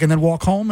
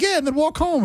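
First: "And then walk home?" rising at the end; puzzled question. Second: High "Yeah", then "walk home" falling; mock reassuring answer. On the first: Retold or imitated. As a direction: ask "And then walk home?" in the usual pitch, lifting HOME. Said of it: "and he's like". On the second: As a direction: answer with a much higher "Yeah", settling down on "home". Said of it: "And it's like".

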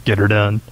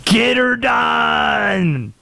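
First: Low-pitched, lightly Southern catchphrase; Southern accent catchphrase. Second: High, very drawn-out Southern holler; Southern accent catchphrase. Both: Acted. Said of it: "It's always the Southern accent".

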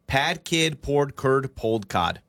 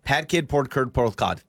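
First: Slow. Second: Faster. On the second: Told to say it faster, he speeds through pad kid poured curd pulled cod. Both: Shown as a demonstration. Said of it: "Say it faster".

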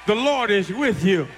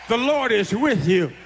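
Both takes have the same delivery.

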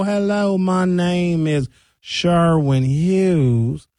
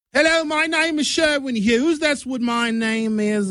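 First: Very slow, drawn-out Southern drawl; slowed-down Southern accent. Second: High-pitched mock English accent. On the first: Showing how slowed English becomes Southern, Southern accent. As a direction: stretch the English accent out until it turns Southern. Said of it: "And if I just slow". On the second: Demonstrating accent from the Great Britain area, English accent. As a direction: put on a high, exaggerated British accent. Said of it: "the English accent from England". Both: Shown as a demonstration.

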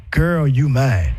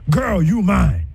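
First: Put-on low and slow, "Girl" falling; possessive claim. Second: Put-on light, "Girl" falling; easy loving "Girl, you mine"; affectionate claim. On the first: Demo of a controlling man, slow and low. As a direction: drag out "Girl, you mine" low and heavy. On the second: Demo of a caring man, light and easy. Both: Shown as a demonstration. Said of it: "You, you see the difference?".

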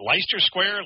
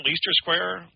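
First: Leicester said as LY-ster; trying a pronunciation. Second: Leicester said as LEE-ster; trying another pronunciation. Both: Real, not acted. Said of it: "is it Leicester Square".

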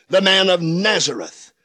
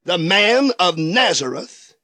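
No difference in how they are said.

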